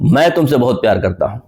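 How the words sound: The word मैं carries the stress. The speaker, and no one else, is the one who loves. "इसका मतलब मैं मैं important हूं, आई।"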